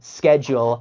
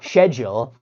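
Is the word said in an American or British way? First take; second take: American; British. First: It is pronounced in an American way. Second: It is pronounced in a British way. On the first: "instead of saying schedule" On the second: "I say schedule. It, I can actually pronounce it better"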